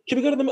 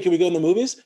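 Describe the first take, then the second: First: It has a British-sounding intonation. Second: It has a Canadian intonation. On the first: "her inflections started to match British people" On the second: "you know how like Canadians would be like"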